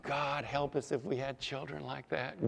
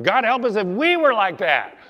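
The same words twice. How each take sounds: First: Softer, held-back remark; hushed aside. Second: "we" punched high and loud; loud stress on WE. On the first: First take, set against next line. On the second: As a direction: cry it out, hitting "we" hard. Repeat turned on the congregation. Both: Real, not acted.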